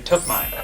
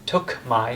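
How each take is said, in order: First: The two words blend into one word. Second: The two words are said separately. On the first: The speaker calls it right. "Sounds like one word" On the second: The speaker calls it wrong. "we don't really say I took my"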